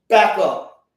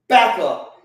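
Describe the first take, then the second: Both takes have the same delivery.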